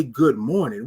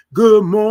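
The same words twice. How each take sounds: First: Said in the usual way. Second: MORNING held very long on a loud ringing note; loud "morning" sustained like a sung call; drawn-out good morning. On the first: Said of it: "we don't just say". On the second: Shown as a demonstration. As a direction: stretch the MOR of morning right out, loud. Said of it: "We say it like that".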